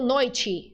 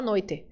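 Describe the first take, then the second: First: The final vowel sounds like I. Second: The final vowel sounds like E. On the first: "Termina com E, mas a gente faz som de I" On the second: "Em alguns lugares do Brasil, eu sei que tem gente que fala noite"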